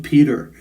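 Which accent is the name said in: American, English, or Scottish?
American. It is said in an American accent. "then I'll translate it into American"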